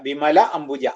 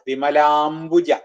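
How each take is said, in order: First: Two separate words, with no vowel merging. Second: One word, with the vowels merged into long a.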